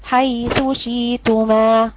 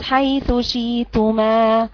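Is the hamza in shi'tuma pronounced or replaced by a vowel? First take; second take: replaced; replaced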